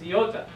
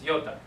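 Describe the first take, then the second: First: The word is said slowly, each syllable separate. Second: The word is said quickly, syllables run together.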